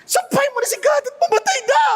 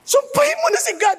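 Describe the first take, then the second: First: High, fast furious shout; wife shouting at Job in rage; angry wife shouting. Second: High, fast scolding; wife angrily telling Job to give up; angry wife. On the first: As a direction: yell at him to curse God and die. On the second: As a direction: snap at him to curse God. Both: Retold or imitated. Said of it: "Kasi galit ni asawa eh".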